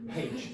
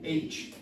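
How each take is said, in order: First: The letter name begins with an h sound. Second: The letter name begins with no h sound. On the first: "in Ireland, you pronounce it like H" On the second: "Everywhere else, there's no H, it's just H"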